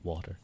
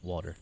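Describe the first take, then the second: First: The T in the middle sounds like soft D. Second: The same.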